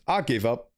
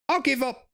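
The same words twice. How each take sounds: First: Said in the usual way. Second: Exasperated, pitched way up; throwing hands up, voice jumping high; much higher give-up. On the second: Acted. Damien fed up with Olivia, high exasperated cry.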